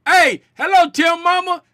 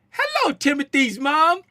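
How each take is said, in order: First: Loud, high, casual holler; big informal shout-out, pitched up; Spider Gang talk. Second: High mock-British greeting; exaggerated British English, pitched up; full British accent. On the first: Retold or imitated. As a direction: imitate a rowdy fan's familiar hello. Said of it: "that's how the Spider Gang talk". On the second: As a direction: put on a very proper British hello. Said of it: "I just went full British".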